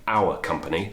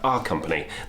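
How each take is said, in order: First: The phrase is said in a more formal way. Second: The phrase is said in a more casual way.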